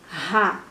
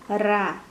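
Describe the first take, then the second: First: The R is a strong, forceful sound. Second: The R is a light, weak sound. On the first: "Esse som de ra é mais forte" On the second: "o som de aranha é diferente do som de rato"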